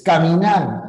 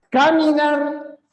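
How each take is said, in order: First: Caminar with the last syllable nar stressed. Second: Caminar with a high first syllable; stress test. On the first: Teacher confirming the stress of caminar. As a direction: land firmly on nar in caminar. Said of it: "es caminar". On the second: Teacher testing where caminar's stress falls. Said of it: "caminar o caminar". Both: Shown as a demonstration.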